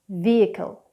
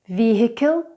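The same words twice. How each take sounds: First: The H in the middle is not pronounced. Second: The H in the middle is pronounced. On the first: The speaker calls it right. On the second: The speaker calls it wrong.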